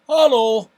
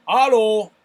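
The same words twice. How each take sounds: First: Hallo shouted again, higher and louder; loud German hallo. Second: Hallo belted out, louder and higher; loud German hallo. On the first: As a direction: belt out Hallo once more. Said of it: "I'll give you that again". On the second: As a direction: bellow hallo like a proud German. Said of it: "that's a lovely one". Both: Shown as a demonstration.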